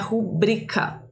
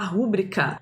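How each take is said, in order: First: The stress is on the second syllable. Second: The stress is on the first syllable. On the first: The speaker calls it right. "mas o certo é rubrica" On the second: The speaker calls it wrong. "A gente fala rúbrica"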